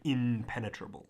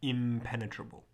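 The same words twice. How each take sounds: First: The nasal before the p is an n. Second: The nasal before the p is an m. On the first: The speaker calls it wrong. "We don't say impenetrable" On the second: The speaker calls it right. "We have the English word impenetrable"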